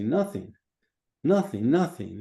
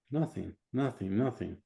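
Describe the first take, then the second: First: Firm client's reply, lifting in volume; convinced answer. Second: Soft, unconvinced client's reply; hesitant answer. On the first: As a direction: say it with growing conviction. Client now believes the answer. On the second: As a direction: answer softly, not quite believing it. Client still doubts the answer. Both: Acted.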